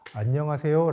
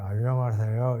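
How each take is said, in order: First: The word is articulated clearly and crisply. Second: The word is slurred, with a weak, dull tongue. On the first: This is the intended normal greeting. "발음했는데" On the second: This can be an early warning sign of a stroke. "이런 식으로 혀에 힘이 안 들어간 것처럼 어두운 느낌으로"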